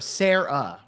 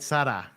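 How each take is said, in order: First: The name is said with an English pronunciation. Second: The name is said with a Spanish pronunciation. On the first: This is the correction the audience gives. "they do these pronunciations for me just to kind of like correct me" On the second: This is how it is said in Mexico. "in Mexico, it's Sara, right? ... that's how they pronounce it"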